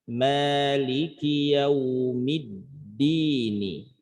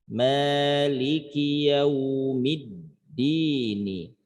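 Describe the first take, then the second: Both takes have the same delivery.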